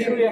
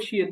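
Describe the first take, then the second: First: শুয়ে with a rounded "u" glide, shu-e; demonstrated mispronunciation. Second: শিয়ে with an "i" glide, shi-e; correct pronunciation. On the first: Teacher quoting the student's mistake, শুয়ে said shu-e. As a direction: echo the slip শুয়ে as shu-e. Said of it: "পরেরটা আপনি বলছেন যে শুয়ে". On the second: Teacher correcting the student, শিয়ে said clearly as shi-e. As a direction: model শিয়ে as shi-e, no "u" sound. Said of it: "হ্যাঁ, এটা হবে শিয়ে". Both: Shown as a demonstration.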